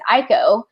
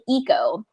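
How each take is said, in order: First: The name is said in an English-style way. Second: The name is said in a Japanese-style way. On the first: This is how the audiobook says it. The speaker calls it wrong. "in the audiobook they pronounce it Ico" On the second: This is thought to be the real pronunciation. The speaker calls it right. "I think it's actually Eco"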